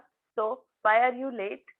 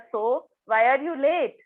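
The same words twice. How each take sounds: First: It is asked in a harsh, angry tone. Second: It is asked loudly with a raised voice. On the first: The asker is angry. "अजून थोडासा हा harsh tone झाला" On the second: The listener falls silent and just stands there. "जोरात आवाज वाढवला"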